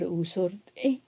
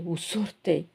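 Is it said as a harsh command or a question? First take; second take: question; command. First: It is said gently, as a question. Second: It is said harshly, as a command. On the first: The listener is asked whether they are going out. "are you going out?" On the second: The listener is being told to leave. "like get out"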